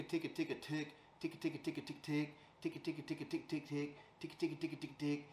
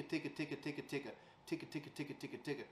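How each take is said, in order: First: Ticka, tick mixed with short quack sounds; broken ticka with half quacks. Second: Ticka, ticka said quietly at an even pace; steady, soft ticka; slow steady ticka. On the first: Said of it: "she's adding a little bit of a quack". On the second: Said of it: "just a slow and steady ticka". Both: Shown as a demonstration.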